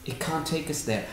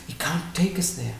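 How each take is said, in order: First: Repeated much softer, sinking away; softer echo. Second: Said in the usual way. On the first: Shown as a demonstration. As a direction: let the repeat fall quiet like an afterthought.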